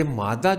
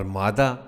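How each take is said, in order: First: مادہ said as "MAAD-da", doubled d; with shad. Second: مادہ said as "MAA-da", single light d; without shad. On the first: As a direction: say مادہ holding the d. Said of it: "جو شد کے ساتھ ہے". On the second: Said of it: "جو بغیر شد کے ہے". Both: Shown as a demonstration.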